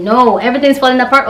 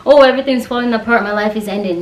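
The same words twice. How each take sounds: First: Said in the usual way. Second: Quick, hammed-up panic over a small problem; mock panic. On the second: Mocking the kind of worker who panics. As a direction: mimic someone falling apart, a bit rushed. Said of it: "I'm not the kind of person who's like".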